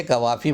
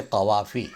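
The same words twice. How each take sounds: First: "कवाफ़ी" with plain k; "कवाफ़ी" without the throaty q; wrong pronunciation. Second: "कवाफ़ी" with throaty q; careful Urdu "कवाफ़ी", q from the throat; correct pronunciation. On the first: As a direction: say "कवाफ़ी" as kavafi, front k. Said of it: "बोलना गलत है". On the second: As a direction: say "कवाफ़ी" as qavafi. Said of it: "इसको बोलें कवाफ़ी". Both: Shown as a demonstration.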